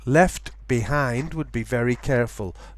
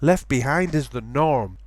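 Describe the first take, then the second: First: The t at the end of left is pronounced. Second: The t at the end of left is dropped. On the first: It sounds very careful. "would be very careful" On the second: It sounds normal. "is the norm"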